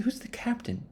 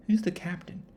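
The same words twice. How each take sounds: First: Squeaky high, confused asking; high puzzled question. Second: Hushed secretive whisper; whispered repeat. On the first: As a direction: ask it in a high baffled voice. Crew asks about the captain. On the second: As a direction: whisper the question to yourself. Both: Retold or imitated.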